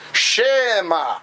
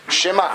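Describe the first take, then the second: First: The vowel after sh is a separate syllable. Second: A short vowel after sh links onward. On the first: The speaker calls it wrong. "they do the Shva" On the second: The speaker calls it right. "you hear an is sound, but it connects to the next letter"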